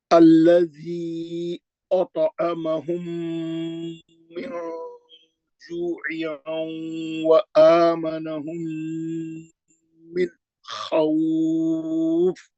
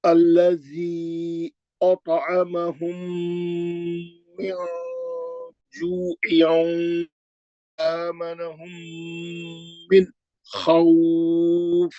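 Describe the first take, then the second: First: Very slow, drawn-out tajweed recitation; Quran recitation. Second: Very slow, stretched tajweed chant; recitation. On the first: Teacher recites the verse for students, slow and melodic. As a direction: recite it slowly, stretching each sound. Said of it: "मैं अभी पढ़ दे रहा हूँ". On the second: Teacher recites again despite a sore throat, slow. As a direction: chant the verse slowly, letting vowels ring. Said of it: "फिर पढ़ लो". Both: Shown as a demonstration.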